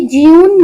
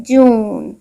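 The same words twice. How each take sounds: First: ज्यून said with a y glide, jyoon; ज्यून as the mistaken jyoon; wrong jyoon. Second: जून said as plain joon with no y glide; जून as the correct long oo. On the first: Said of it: "हमने कभी ज्यून नहीं कहा". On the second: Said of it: "हम कहते हैं जून". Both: Shown as a demonstration.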